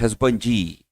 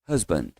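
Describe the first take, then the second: First: The final D is strong with an added vowel. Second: The final D is only lightly touched. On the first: The speaker calls it wrong. "Não é forte, husbandi" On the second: The speaker calls it right. "É só um toquinho no D"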